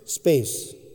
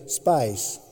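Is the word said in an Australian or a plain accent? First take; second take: plain; Australian. First: The word is said in a plain accent. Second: The word is said in an Australian accent.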